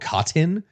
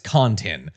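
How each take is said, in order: First: The n sound before the t is dropped. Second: The n sound before the t is clearly heard. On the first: The speaker calls it wrong. "Everyone just says Oxycontin or Cotton" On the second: The speaker calls it right. "but it's Contin"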